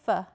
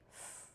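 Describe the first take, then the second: First: It is said as the letter name, eff. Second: It is said as a bare hissing fff sound. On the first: The speaker calls it wrong. "don't say F" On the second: The speaker calls it right. "say F"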